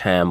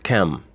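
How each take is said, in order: First: The name is said with English pronunciation. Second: The name is said with a non-English pronunciation. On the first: The speaker calls it wrong. "as that word is pronounced in the English" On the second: The speaker calls it right. "as it's really pronounced is"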